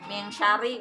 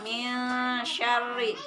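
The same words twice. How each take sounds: First: It moves straight into the next sound, rushed. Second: It holds briefly before the next sound. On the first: The speaker calls it wrong. "langsung ke huruf shinnya. Min syari misalnya. Nah, salah ya" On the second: The speaker calls it right. "Ada jeda sebentar"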